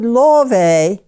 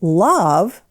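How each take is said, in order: First: It ends with an extra vowel syllable. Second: It is said as one syllable. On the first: This is how the word was said long ago. "that E used to be said. It was a separate syllable" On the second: This is how the word is said today. "silent E"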